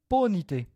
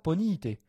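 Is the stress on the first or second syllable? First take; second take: first; second. First: The stress is on the first syllable. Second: The stress is on the second syllable. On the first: The speaker calls it right. "la voyelle qu'on rajoute est faible. Par exemple, on dit" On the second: The speaker calls it wrong. "On ne dit pas"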